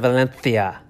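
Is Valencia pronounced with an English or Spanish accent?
Spanish. The name is said with a Spanish pronunciation. The speaker calls it right. "make sure you pronounce it Valencia ... that's the Spanish accent"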